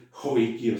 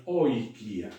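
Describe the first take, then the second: First: Joikia with a breathy j sound before the oi; teacher demoing the mistake joikia; wrong pronunciation. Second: Oikia with a clean vowel start on oi, no h; teacher giving the right form oikia; correct pronunciation. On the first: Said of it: "No es joikia". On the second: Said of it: "sino es oikia". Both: Shown as a demonstration.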